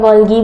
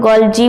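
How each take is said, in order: First: Golgi said "GOL-ghee"; hard g variant. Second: Golgi said "GOL-jee"; soft g variant. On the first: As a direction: say Golgi with a hard g in the second syllable. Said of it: "Golgi बोलते हैं". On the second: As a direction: say Golgi with a j sound in the second syllable. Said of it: "कई लोग Golgi भी बोलते हैं". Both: Shown as a demonstration.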